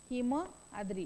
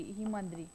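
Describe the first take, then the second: First: Said in the usual way. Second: Himadri with a long, weighted मा; stress on the म. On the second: Shown as a demonstration. Teacher to students, showing the long joined vowel, stressed. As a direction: lean on the मा of Himadri. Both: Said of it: "म वर, म वर जोर पडला".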